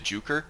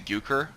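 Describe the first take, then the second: First: The name starts with a J sound. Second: The name starts with a Y sound. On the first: This follows the community's adopted usage. "Joe pronounces it Juker" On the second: This follows the original Nordic language. "I think that J is supposed to be like a Y sound"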